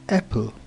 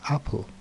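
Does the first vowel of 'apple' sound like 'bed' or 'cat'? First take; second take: bed; cat. First: The first vowel sounds like the 'e' in bed. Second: The first vowel sounds like the 'a' in cat. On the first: The speaker calls it wrong. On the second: The speaker calls it right.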